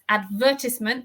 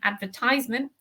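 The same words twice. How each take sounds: First: It has the British English stress pattern. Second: It has the American English stress pattern. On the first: "the noun in British English is advertisement" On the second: "The stress is different to the American advertisement"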